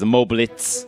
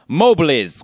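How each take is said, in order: First: The name ends in a ts sound. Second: The name ends in a plain z sound. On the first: The speaker calls it wrong. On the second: The speaker calls it right.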